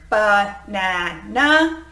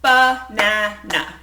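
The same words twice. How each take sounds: First: "banana" very slowly, mouth opening wide on each syllable; exaggerated chin drops. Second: "banana" said slowly, each syllable a separate beat; clapped syllables. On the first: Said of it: "place your hand underneath of your chin and say a word". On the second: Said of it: "every time you hear a syllable or beat in the word, you clap". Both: Shown as a demonstration.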